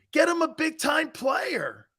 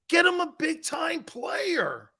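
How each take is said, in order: First: Higher, slow shout, each word leaned on; repeated plea. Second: Higher, slow, drawn-out shouted demand; emphatic plea. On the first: Repeating his demand to the chat, slow and shouted. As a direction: hammer the demand home again. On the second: To the chat about the team, a slow shouted plea. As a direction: beg the front office at full voice. Pleading for team to add talent. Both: Real, not acted.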